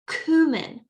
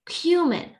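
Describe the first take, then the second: First: It is said in an American accent. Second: It is said in a British accent. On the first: "American English" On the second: "British English"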